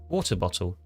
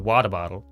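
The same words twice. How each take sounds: First: The T sounds are clearly pronounced. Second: The T sounds are not clearly pronounced. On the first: "We go" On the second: "Why don't Americans pronounce it? They're the ones who go"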